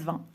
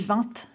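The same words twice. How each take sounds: First: It is said the way other regions say it. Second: It is said with a Northern French accent. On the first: This is how people in other regions say it. "les autres régions disent vingt" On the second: This is how people in the North say it. "on dit vingt chez nous"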